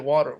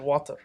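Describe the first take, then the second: First: It is said in an American English accent. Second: It is said in a British English accent. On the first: "we don't say water" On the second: "but the British English. So ... we say water"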